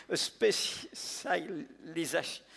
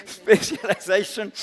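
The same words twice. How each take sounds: First: Slow, stumbling "specialization" in a French accent; halting first try. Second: "specialization" said again, louder and pushed through as "spesh-lee-zay-shon"; louder retry. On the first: French speaker apologizing for his English, fumbling the word slowly. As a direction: sound out "specialization" carefully and get stuck. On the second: French speaker recovering from a stumble, retrying the word louder. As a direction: push through the word on the second attempt. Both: Real, not acted. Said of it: "excuse my bad English and my awful accent".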